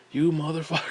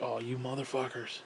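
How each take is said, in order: First: Said in the usual way. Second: Muttered curse. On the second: Retold or imitated. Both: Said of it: "and I'm like".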